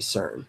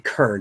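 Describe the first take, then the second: First: The word begins with a soft S sound. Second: The word begins with a hard K sound. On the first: The speaker calls it right. "you say CERN" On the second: The speaker calls it wrong. "You don't say Kern"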